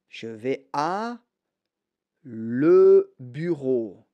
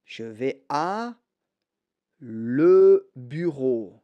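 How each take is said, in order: First: The words 'à le' are said separately. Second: The words 'à le' are said separately.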